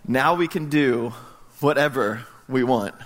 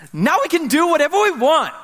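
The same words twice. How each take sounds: First: Slow pondering repeat. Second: Put-on much higher, louder little-boy cheer; high delighted child announcing his discovery; [name]'s excited kid voice. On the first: Real, not acted. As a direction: let the line sink in slowly. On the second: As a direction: crow it like a thrilled four-year-old. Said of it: "And he goes".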